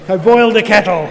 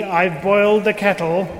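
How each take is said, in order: First: Louder put-on frog voice. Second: Said in the usual way. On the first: A narrator's reading. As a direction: redo the line as the frog. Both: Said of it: "I don't normally do a frog voice".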